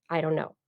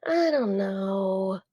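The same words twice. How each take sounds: First: Said in the usual way. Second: Slow, drawn-out hesitant answer; conflicted. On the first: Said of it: "The computer just hears". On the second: Shown as a demonstration. Showing a human reply to the assistant, conflicted. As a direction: stretch it out, torn and unsure.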